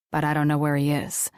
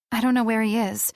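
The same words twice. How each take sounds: First: Clipped low denial from Riker; Riker's denial. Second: Put-on higher and fast, the girl insisting; quick higher denial from the girl; girl's quick denial. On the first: Acted. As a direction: lower and fast, the young man cutting in. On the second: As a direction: rush it out as the young heroine. Girl's denial, later echoed by Riker.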